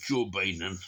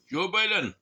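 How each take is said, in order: First: Said in the usual way. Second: High, loud call that falls away; sudden loud high exclamation; exclaimed. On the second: Real, not acted. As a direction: call the name out, pitched way up. Exclaims the name a second time.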